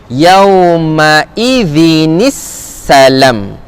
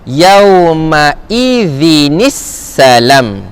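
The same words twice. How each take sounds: First: The last words are joined with a linking i vowel. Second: The same.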